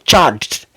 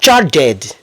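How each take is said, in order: First: The -ed ending is not said as a syllable. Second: The -ed ending is said as an extra syllable. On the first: The speaker calls it right. "c'est charged ... il faut pas lire le ed" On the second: The speaker calls it wrong. "C'est pas charged"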